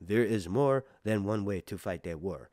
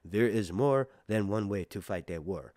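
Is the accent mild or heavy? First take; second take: mild; mild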